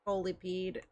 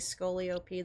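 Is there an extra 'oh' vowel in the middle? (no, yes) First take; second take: no; yes. First: No extra vowel comes after 'Scoli'. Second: An extra 'oh' vowel comes after 'Scoli'. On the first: The speaker calls it right. "There's not another O in there" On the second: The speaker calls it wrong. "I've been saying it wrong this whole time"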